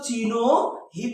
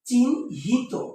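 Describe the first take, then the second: First: An extra o vowel splits the middle consonants. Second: The consonants join with no vowel between them. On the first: The speaker calls it wrong. "হর্ষন্ত না দিতাম তাহলে sir কি উচ্চারণ করতো" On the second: The speaker calls it right. "এটার উচ্চারণ হচ্ছে এরকম চিহ্নিত"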